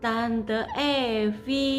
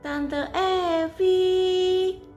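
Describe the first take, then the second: First: The name is called at normal volume. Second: The name is called out louder.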